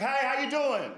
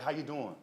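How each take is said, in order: First: Put-on high, coquettish old-lady greeting; old lady acting cute. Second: Said in the usual way. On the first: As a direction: play her pleased with her own looks. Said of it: "She thought she looked cute". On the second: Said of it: "I was like".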